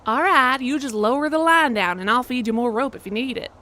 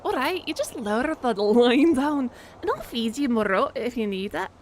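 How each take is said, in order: First: Terrible Southern accent. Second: Badly faked Scottish accent; terrible Scottish accent. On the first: Player trying accents for the game character, terrible Southern. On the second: Player trying accents for the game character, terrible Scottish. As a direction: do a hammed-up Scots accent. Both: Shown as a demonstration. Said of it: "terrible Scottish or terrible Southern".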